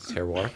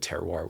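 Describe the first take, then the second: First: It is said with a strong French accent. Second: It is said with a plain English accent.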